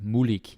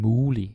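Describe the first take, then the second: First: The g at the end is pronounced. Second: The g at the end is not pronounced. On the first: The speaker calls it wrong. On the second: The speaker calls it right.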